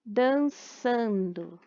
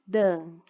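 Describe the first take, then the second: First: Said in the usual way. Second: Dançando split into dan, çan, do with long pauses; three isolated beats for dançando; syllable by syllable. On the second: Shown as a demonstration. Teacher demonstrating syllable separation, dançando broken after dan and çan. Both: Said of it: "a separação das sílabas".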